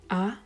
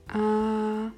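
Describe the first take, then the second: First: The pitch rises from middle to high. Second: The pitch stays high and level. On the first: "Der zweite Ton steigend" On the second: "der erste Ton gleichbleibend"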